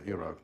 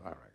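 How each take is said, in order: First: Iraq said "ee-RAHK", rhyming with Chirac; French-style Iraq. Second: Iraq said "eye-RACK"; American-style Iraq. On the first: Speaker shows listeners his own way, Iraq as "ee-RAHK". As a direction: start Iraq with "ee", end like Chirac. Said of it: "so we say Iraq". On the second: Speaker shows the rejected local way, Iraq as "eye-RACK". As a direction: open Iraq with "eye", rhyme it with "back". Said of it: "not Iraq". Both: Shown as a demonstration.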